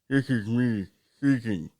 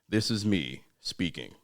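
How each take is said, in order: First: Spoken as if there were no tongue. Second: Spoken in a normal, natural speaking voice. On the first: "pretend that you don't have a tongue" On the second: "my regular speaking voice"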